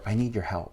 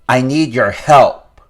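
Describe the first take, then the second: First: It sounds gentle and supportive. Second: It sounds confrontational and demanding. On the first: The listener is treated with care. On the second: The listener is treated as an opponent. "So adversarial"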